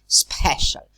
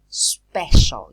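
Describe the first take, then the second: First: The p is said with a puff of air. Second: The p is said without a puff of air. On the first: The speaker calls it wrong. "You don't say special" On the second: The speaker calls it right. "you don't aspirate them. You say special"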